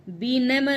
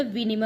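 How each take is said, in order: First: विनिमय as "binemay", with b; wrong pronunciation. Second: विनिमय as "vinimay", with v; correct pronunciation. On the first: Teacher showing the error, विनिमय as "binemay". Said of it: "विनिमय नहीं होता". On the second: Teacher correcting the error, विनिमय as "vinimay". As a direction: say विनिमय with short i vowels. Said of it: "विनिमय होता है". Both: Shown as a demonstration.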